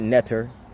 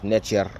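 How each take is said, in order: First: The middle consonant is a t sound. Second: The middle consonant is a ch sound. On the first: The speaker calls it wrong. "Some people pronounce it netter. That's cool too, but that's not technically how it's pronounced" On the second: The speaker calls it right. "It's pronounced nature. A capital T in ancient Egyptian makes a ch sound"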